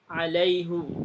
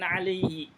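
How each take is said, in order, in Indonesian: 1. Kata ini berakhir dengan vokal u. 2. Kata ini berakhir dengan vokal i. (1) "domah semua" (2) "bukan alaihi"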